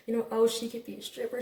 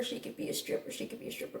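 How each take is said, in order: First: Said in the usual way. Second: Repeating it in a whisper. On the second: Retold or imitated. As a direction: breathe the words out, almost soundless. Repeats his remark, dropping voice.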